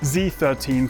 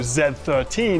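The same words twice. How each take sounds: First: The letter is said the American way. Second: The letter is said in a non-American way.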